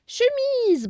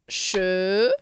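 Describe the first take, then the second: First: "Chemise" high and a bit louder, in one go; whole word, exclaimed. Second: "chemise" split into che... mi... se, lower pitched; syllable by syllable. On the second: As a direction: sound out "chemise" in three slow beats. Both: Shown as a demonstration. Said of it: "on va séparer les syllabes".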